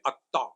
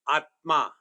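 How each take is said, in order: First: The middle cluster becomes a long t sound. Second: The middle cluster is pronounced as t plus m. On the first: "Bengalis will say Atta" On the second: "Conjunct consonant is a combined letter like Atma"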